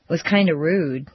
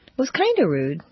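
First: "kinda" stressed with a falling tune; "kinda" weighted, "rude" falling away. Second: "kinda" lifted on a rising tune; "kinda" rising, "rude" tentative. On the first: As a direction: press on "kinda" and let it fall. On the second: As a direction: let "kinda" float up, a little unsure. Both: Shown as a demonstration. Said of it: "Meaning of pretty, sorta, kinda".

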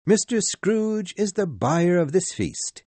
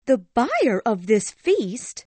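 First: Higher, bright toast voice, MISTER leading; cheerful Bob. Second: Higher, slow indignant echo, "buyer" hit hard; angry cry. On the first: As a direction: announce the host with goodwill. Bob toasts his employer. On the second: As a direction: fling the words back in disbelief. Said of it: "cried Missus Cratchit angrily". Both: A narrator's reading.

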